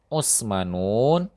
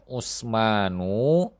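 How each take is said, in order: First: The word ends with the sound 'un'. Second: The word ends with the sound 'u'. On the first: The speaker calls it wrong. "lafaz yang keliru" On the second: The speaker calls it right. "yang benar adalah"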